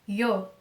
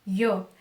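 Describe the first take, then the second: Both takes have the same delivery.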